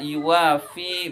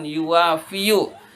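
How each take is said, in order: First: The word ends without a final u vowel. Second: The word ends with a final u vowel. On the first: The final vowel is too heavy to pronounce, so it is dropped. "sehingga yuwafi" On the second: This is the original form before the vowel is dropped. "bukan yuwafiyu"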